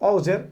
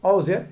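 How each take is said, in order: No difference in how they are said.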